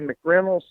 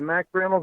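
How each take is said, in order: First: The first syllable is reduced, not a full 'Mack'. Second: The first syllable is a full 'Mack' sound. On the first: "some people say McReynolds" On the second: "some people say Mac Reynolds"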